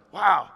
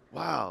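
First: Bigger, more emphatic wow; mock amazement. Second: Soft, hushed little wow; understated awe. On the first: Listener reacting to a confident answer, mock amazement. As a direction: punch it as an exaggerated impressed reaction. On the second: Acted. Listener reacting to a confident answer, understated awe. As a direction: react softly, as if quietly impressed.

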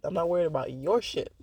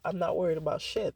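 First: "your" stressed against the previous line. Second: Said in the usual way. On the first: Retold or imitated. Quoting a song at the ex, with stress on "your". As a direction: lean on "your" to set it apart. Quoted lyric, YOUR contrasted with first.

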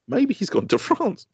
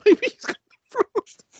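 First: Put-on high, slow little-boy voice; child's hopeful voice. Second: Squeaky high, slow, through laughter; laughing child impression. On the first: Father imitates son's hopeful guess, high slow child voice. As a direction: say it like a hopeful kid. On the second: Father repeats son's line, cracking up in a high voice.

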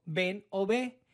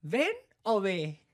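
First: Said in the usual way. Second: Slow, drawn-out feigned confusion; mock-innocent question to the cop; playing dumb. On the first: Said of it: "le digo". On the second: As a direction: stretch it like you don't get it. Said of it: "me hago pendejo".

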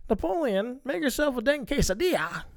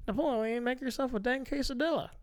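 First: Higher mock mom voice; lightly voiced movie mom. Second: Higher, softer mock mom voice; lightly voiced movie mom. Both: Quoting the mom from Napoleon Dynamite, mock mom voice. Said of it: "if she's like".

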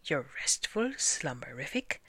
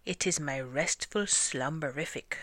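First: Doubtful echo rising into a question. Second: Said in the usual way. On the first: A narrator's reading. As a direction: repeat it unconvinced, lifting at the end. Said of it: "asked Nellie May doubtfully".

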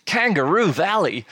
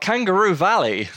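First: Kangaroo Valley in a hammed-up Australian accent, higher; mock Australian twang on the place name; awful Australian accent. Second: Said in the usual way. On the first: Shown as a demonstration. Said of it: "That sounds so Australian". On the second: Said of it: "apologise for my awful Australian accent".

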